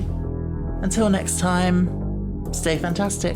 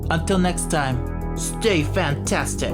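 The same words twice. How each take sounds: First: It is said in the speaker's ordinary accent. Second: It is said in a put-on New York accent.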